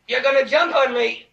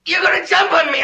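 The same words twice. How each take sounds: First: Fearful realization at usual pitch; contained fearful accusation; subdued dread. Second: Higher, frightened cry; shouted fearful accusation; rising panic. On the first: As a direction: say it small, before the panic hits. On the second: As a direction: let the dread break into alarm. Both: Acted.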